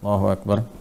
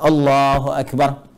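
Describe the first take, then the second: First: It is said softly, in a quiet voice. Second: It is said somewhat loudly, clearly audible.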